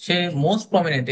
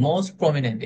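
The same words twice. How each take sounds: First: "most prominent" said slowly and pressed hard; emphasized phrase; stress on most prominent. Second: "most prominent" pushed out strongly; stress on most prominent. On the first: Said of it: "এই যে আমি একটা emphasising word দিতেছি". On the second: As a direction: hit "most prominent" firmly. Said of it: "এটাকে আমি জোরে বলবো". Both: Shown as a demonstration.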